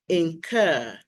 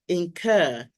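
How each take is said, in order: First: The second syllable sounds like 'cur'. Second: The second syllable sounds like 'cur'.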